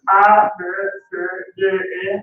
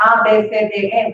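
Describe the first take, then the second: First: Letters "A, B, C, D, E" in German, one by one; German alphabet. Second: Letters named "ah, beh, seh, deh, eh"; Spanish alphabet. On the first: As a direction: recite "A, B, C, D, E" as German letters, with pauses. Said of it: "That's in Deutsch". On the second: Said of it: "That's in Espanol". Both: Shown as a demonstration.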